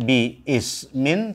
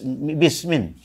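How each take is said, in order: First: The i of ismin is sounded separately. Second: The two words run together as one word. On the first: The speaker calls it wrong. "bukan bi ismin" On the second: The speaker calls it right. "tapi bis bismin"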